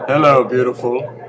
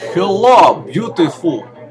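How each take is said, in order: First: It is said in a plain accent. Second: It is said in a Russian accent.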